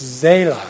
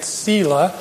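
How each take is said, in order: First: The word begins with a buzzing z sound. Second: The word begins with a hissing s sound. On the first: The speaker calls it right. "It's Zela" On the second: The speaker calls it wrong. "I was pronouncing it Sela, and it's wrong"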